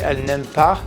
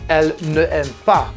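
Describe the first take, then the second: First: The vowel of ne is dropped before aime. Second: The word ne is said in full before aime. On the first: The speaker calls it right. "You have to say elle n'aime pas and abbreviate it" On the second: The speaker calls it wrong. "it would be wrong to say"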